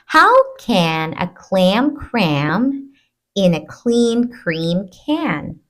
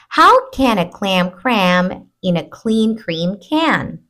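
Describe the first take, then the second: First: The sentence is spoken slowly. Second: The sentence is spoken at moderate speed. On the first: "I'll read it slowly first" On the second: "Let's do it a little faster"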